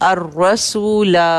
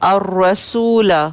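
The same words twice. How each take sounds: The two takes are said the same way.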